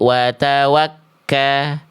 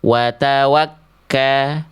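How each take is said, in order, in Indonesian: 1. Bunyi k-nya ditahan dan ganda. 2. Bunyi k-nya ditahan dan ganda.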